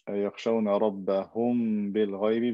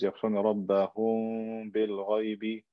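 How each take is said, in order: First: The m sound is pronounced fully and clearly. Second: The m sound is hidden and softly nasal.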